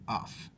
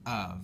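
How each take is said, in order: First: The word ends with an f sound. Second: The word ends with a v sound. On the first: This is how some people with accents say it. "I have heard people with accents pronounce of off" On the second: This is the usual American way to say it. "I'm a lazy American and I pronounce it of"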